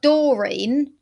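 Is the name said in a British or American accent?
British. The name is said in a British accent.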